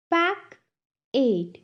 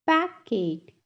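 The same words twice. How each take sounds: First: "Pack it" as two separate beats; long pause between "Pack" and "it"; syllable by syllable. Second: Said in the usual way. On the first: Shown as a demonstration. Teacher has class repeat, "Pack it" broken in two. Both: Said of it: "टू syllables में divide".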